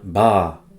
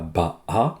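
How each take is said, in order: First: The vowel is one smooth, lengthened sound. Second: The vowel is broken into two separate beats. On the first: The speaker calls it right. "mais bien ba" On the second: The speaker calls it wrong. "ça se lit pas ba-a"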